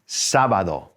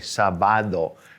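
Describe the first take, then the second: First: The stress is on the first syllable. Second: The stress is on the middle syllable. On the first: The speaker calls it right. "an accent on the A, the first A" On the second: The speaker calls it wrong. "sometimes my students want to say sábado, you know, because it's three syllables"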